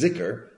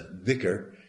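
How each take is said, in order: First: The word begins with a buzzing 'z' sound. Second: The word begins with a soft 'th' sound. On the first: This is the Egyptian dialect form. "the Egyptian dialect pronunciation is zikr" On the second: This is the classical Arabic form. "the classic Arabic pronunciation is the dhikr"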